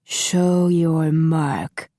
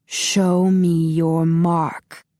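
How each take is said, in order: First: Slow, muffled, commanding villain; muffled demand. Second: Very slow, muffled, insistent command; muffled demand. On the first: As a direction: demand it slowly behind a mask. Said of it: "Master Han demanded in his muffled voice". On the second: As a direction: press the demand, slowly and cold. Master Han repeats demand. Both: A narrator's reading.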